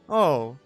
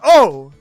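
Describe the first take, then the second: First: It sounds sad. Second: It sounds surprised.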